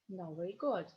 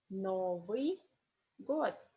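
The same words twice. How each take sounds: First: The phrase is said faster. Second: The phrase is said slowly. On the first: "second time is more fast" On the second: "First is slowly"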